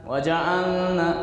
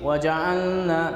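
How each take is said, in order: First: The L merges into a nasal N sound. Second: The same.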